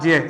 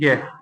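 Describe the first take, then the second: First: The syllable begins with a j sound. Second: The syllable begins with a g sound. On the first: This is the pure, standard form. "शुद्ध उच्चारण इसका जिय है" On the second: This is the popular, commonly used form. "हम क्या बोलते हैं, गे। ये क्या है, प्रचलित रूप है"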